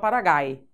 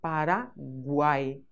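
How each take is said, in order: First: No w sound is heard after the g. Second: A w sound is heard after the g. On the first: The speaker calls it wrong. "eu não falo Paraguai" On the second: The speaker calls it right. "Aqui eu ouço o som da letra U"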